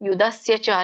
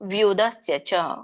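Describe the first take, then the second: First: The first word starts with a plain y sound. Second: The first word starts with a v sound. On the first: The speaker calls it wrong. "ಯುಧಸ್ಯ ಚ ಅಲ್ಲ" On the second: The speaker calls it right. "ವ್ಯುದಸ್ಯ ಚ ಹೇಳ್ಬೇಕು"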